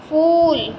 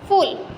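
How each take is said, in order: First: The vowel is long. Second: The vowel is short. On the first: The speaker calls it right. "बड़े ऊ की मात्रा लगी" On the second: The speaker calls it wrong. "छोटे ऊ की मात्रा लगी"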